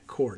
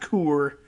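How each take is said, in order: First: The word rhymes with core. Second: The word does not rhyme with core. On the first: The speaker calls it right. "It's just like apple core" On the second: The speaker calls it wrong. "not Coeur"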